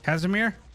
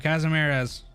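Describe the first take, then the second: First: The name ends without the 'res' syllable. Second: The name ends with an extra 'res' syllable. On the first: The speaker calls it right. "No res in the end" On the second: The speaker calls it wrong. "Casimirez is not how you say it. Cut the res"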